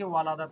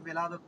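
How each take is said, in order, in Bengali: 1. প্রথম সিলেবলটি 'a' স্বরধ্বনি দিয়ে বলা হয়। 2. প্রথম সিলেবলটি 'i' স্বরধ্বনি দিয়ে বলা হয়। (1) "ওয়ালাদাত কখনো পড়বেন না, ভুল হয়ে যাবে।" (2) "এই তো বিলাদাত"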